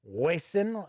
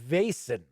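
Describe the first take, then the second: First: The word begins with a W sound. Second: The word begins with a V sound. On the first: "like it's got a W" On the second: "I believe the correct, correct, I should say, pronunciation is Vasen"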